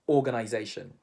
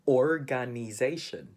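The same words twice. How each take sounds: First: It is said in a British English accent. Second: It is said in a Filipino English accent. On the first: "And how do Brits pronounce it?" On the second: "Filipinos would say"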